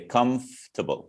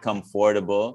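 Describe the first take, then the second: First: The middle 'o' vowel is dropped entirely. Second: The middle 'o' vowel is clearly pronounced. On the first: "we don't pronounce the O. So we'll just say" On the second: "some people will say"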